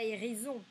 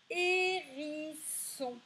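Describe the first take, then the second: First: "hérison" with a buzzed z for the s; wrong Z sound. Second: "Hérisson" high and slow, with a hissed s; correct S sound. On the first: Teacher showing what isn't said, "hérison" with z. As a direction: say "hérison" as if spelt with z. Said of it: "On dit pas hérison". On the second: Teacher testing pupils' ears, "Hérisson" slowly with s. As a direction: draw out each syllable of "Hérisson", s not z. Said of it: "on entend le son". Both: Shown as a demonstration.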